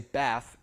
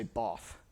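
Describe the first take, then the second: First: The vowel is a flat front a sound. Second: The vowel is a broad back ah sound. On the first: "where they don't say bath" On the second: "they say both"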